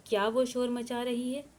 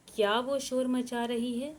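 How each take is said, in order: Both takes have the same delivery.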